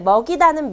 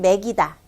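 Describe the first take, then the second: First: The first vowel is a back eo sound. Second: The first vowel is a front e sound.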